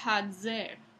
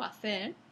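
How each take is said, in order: First: The middle consonant is a voiced dz affricate. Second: The middle consonant is a plain s. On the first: This is the medieval pronunciation. "en la época medieval se decía hazer" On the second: This is the present-day pronunciation. "En lugar de decir hacer"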